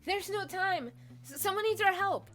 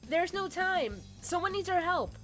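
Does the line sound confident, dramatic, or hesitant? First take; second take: hesitant; confident. First: The line sounds hesitant and lacking confidence. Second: The line sounds firm and confident. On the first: The speaker calls it wrong. "No, it needs to sound more confident" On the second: The speaker calls it right. "it needs to sound more confident"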